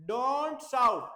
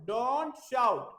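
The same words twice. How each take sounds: The two takes are said the same way.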